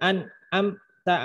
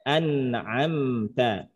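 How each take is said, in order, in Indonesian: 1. Bunyi sengau terputus tiba-tiba. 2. Bunyi sengau mengalir terus tanpa berhenti. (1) "Bukan di bukan diberhentikan" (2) "Jadi bacanya an'amta"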